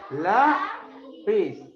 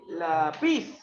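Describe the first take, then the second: First: The stress is on the first syllable. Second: The stress is on the second syllable. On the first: The speaker calls it right. "¿dónde está la fuerza de voz? En la" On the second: The speaker calls it wrong. "Tú no dices así"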